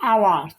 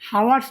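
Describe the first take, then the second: First: The word starts with a vowel, no h. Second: The word starts with an audible h sound. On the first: The speaker calls it right. "হবে আওয়ার্স উচ্চারণ" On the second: The speaker calls it wrong. "না হাওয়ার্স"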